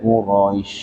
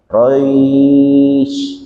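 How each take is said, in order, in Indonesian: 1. Bunyi sh di akhir dipanjangkan. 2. Diftong ai dipanjangkan. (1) "Nah bukan gitu" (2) "tapi roynya"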